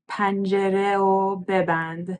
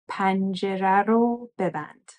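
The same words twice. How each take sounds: First: The object marker is said without an r sound. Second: The object marker is said with an r sound. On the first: The speaker calls it wrong. "it's kind of weird to say" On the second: The speaker calls it right. "we add that R to make it a little smoother"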